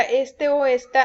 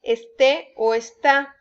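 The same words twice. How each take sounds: First: "este o esta" stressed ES-te, ES-ta; stress on the first syllable. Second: Slow "este o está", stressed es-TÉ, es-TÁ; stress on the last syllable. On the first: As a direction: lean on the opening E of "este" and "esta". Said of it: "con acento en la primera E". ("este o esta" con la fuerza en la primera sílaba) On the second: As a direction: land firmly on the final vowels of "este" and "está". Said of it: "lleva acento en la última sílaba". ("este o está" lento, con acento en la última sílaba) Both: Shown as a demonstration.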